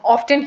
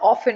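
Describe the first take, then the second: First: The t sound is clearly pronounced. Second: The t sound is left silent. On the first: This is how the word was originally said. "when this word originated initially, इसको जो है वो often ही pronounce किया जाता था" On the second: This is how the word came to be said later. "often में भी फिर t को pronounce नहीं किया जाता था"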